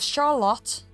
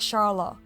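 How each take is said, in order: First: The final consonant is a clear T sound. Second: The final consonant sounds like a D. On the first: "instead of Charlotte" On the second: "A lot of T's are becoming D's"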